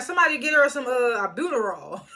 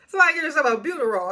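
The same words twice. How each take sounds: First: Said in the usual way. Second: Laughing through the line, quick. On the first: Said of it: "Mariah was like". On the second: Real, not acted. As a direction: crack up while repeating it.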